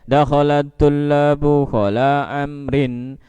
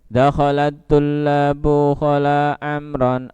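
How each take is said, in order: First: The last word ends with an 'in' sound. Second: The last word ends with an 'an' sound. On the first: The excepted noun is in the genitive case. "Kalau dibaca jer" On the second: The excepted noun is in the accusative case. "Kalau dibaca nasab berarti"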